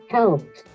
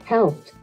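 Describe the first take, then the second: No difference in how they are said.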